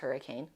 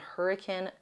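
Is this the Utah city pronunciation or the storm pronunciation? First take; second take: storm; city. First: It is said the usual storm way. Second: It is said the local Utah way. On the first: It names the weather storm. "The storm is Hurricane" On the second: It names the town in Utah. "That is how you pronounce it in Utah, the city, not the storm"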